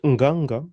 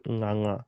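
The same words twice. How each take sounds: First: "nganga" with a hard g, ng-ga-ng-ga; hard-g mispronunciation. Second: "nganga" with soft ng as in singer, no hard g; soft hanging ng. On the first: Teacher showing the wrong name, with hard g. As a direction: sound a hard g in both halves of "nganga". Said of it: "Not nganga". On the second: Teacher showing the Kikuyu name, soft hanging ng. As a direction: hum both ng sounds in "nganga" without a g. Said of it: "but nganga". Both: Shown as a demonstration.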